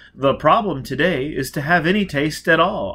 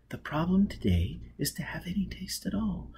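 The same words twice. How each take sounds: First: Said in the usual way. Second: Soft whispered rehearsal of the line. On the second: Acted. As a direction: breathe it to yourself first. Whispered rehearsal then said aloud.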